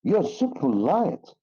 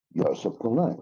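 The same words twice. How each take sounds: First: YOU'RE SO POLITE drawn out, high, big swoop on POLITE; sarcastic stress. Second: Said in the usual way. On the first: Shown as a demonstration. Teacher shows how stress flips a compliment, sarcastic stress. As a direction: stretch and lean on POLITE so it means the opposite. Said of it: "Here means you are not polite".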